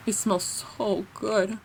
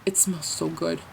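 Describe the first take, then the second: First: "It smells so good" slow and soft, relishing it; savoring. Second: Said in the usual way. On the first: Real, not acted. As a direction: linger dreamily on every word.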